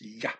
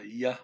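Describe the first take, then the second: First: The consonant is said harshly. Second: The consonant is said softly. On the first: "is a little more harsher" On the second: "Instead of"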